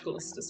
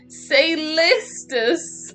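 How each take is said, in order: First: The name begins with a K sound. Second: The name begins with an S sound. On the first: "but I say ka" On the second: "I can understand you wanting to say say"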